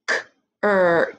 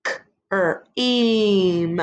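First: Slow stretched blend K-er-eem; sounding out cream. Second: Stretched K-er-eem said again; sounding out cream. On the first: Teacher blends cream with the class, slow and stretched. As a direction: draw out K-er-eem in separate sounds. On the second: Teacher repeats the cream blend with the class, stretched. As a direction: hold each sound of K-er-eem apart. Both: Shown as a demonstration. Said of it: "Let's do it together".

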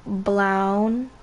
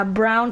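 First: "brown" said as "blown" to rhyme with town; blended slip. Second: Said in the usual way. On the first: Real, not acted. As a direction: say "brown" with an L for the R, "blaun". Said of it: "so I mixed it with". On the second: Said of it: "yeah, brown terracotta".

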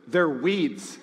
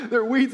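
First: Blunt answer breaking into a laugh; laughing blunt reply. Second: Louder and higher, punching weeds; emphatic repeat. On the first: Ted answering the wife's question with a laughing blunt reply. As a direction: chuckle through it, deadpan underneath. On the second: Pastor repeating Ted's verdict to the church in a louder, higher emphatic voice. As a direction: hammer it home with a grin. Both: Retold or imitated. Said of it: "And Ted goes".

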